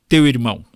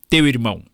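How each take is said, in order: No difference in how they are said.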